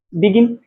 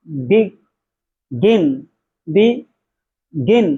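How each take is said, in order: First: Said in the usual way. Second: begin broken in two, बि... गिन, with a pause between; split into syllables. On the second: Shown as a demonstration. Teacher showing students two syllables, begin split slowly as बि... गिन. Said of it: "दो बार आपका जबड़ा नीचे आए".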